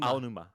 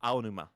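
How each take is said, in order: No difference in how they are said.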